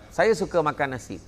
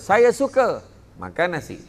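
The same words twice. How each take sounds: First: The sentence is said straight through without a pause. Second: There is a pause after the word suka.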